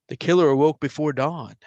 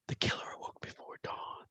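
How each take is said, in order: First: Said in the usual way. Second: Faint unvoiced whisper. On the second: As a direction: whisper it like a hidden voice under the song. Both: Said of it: "There's a whisper and then Jim".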